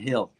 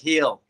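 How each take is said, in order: First: It is said in a standard accent. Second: It is said with a country twang. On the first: "instead of hill" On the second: "I say things like hill"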